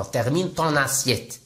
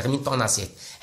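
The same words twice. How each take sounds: First: Slow, careful French for learners; slow model phrase. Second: Said in the usual way. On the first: Shown as a demonstration. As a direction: say each word slowly and clearly. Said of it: "لي فرونسي تيقولوا بحال هكا". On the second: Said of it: "هما تيقولوها بحال هكا".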